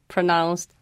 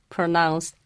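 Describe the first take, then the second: No difference in how they are said.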